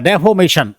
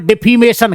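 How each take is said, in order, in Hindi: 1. बीच का स्वर 'o' जैसा सुनाई देता है। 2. बीच का स्वर 'ee' जैसा सुनाई देता है। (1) "अब ई की जगह पे ओ का उच्चारण हो रहा है" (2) "अब हम तो इसको डिफीमेशन कहते"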